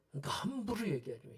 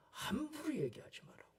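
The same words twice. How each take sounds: First: Said in the usual way. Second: Whispered warning. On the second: Shown as a demonstration. Preacher hushes congregation about slander, whispering.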